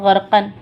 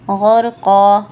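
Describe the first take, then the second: First: The word ends with an -an sound. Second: The word ends with a long -a sound. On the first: The reading continues without a stop. "लफ्ज़ क्या है गर्कन" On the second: The reader stops on this word. "मुझे रुकना है, स्टॉप करना है"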